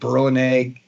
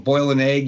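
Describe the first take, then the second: First: Boil is said in a Brooklyn accent, like burl. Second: Boil is said with a standard vowel.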